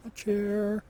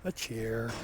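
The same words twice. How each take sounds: First: Excited. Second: Said in the usual way. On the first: Real, not acted. Repeats item name louder.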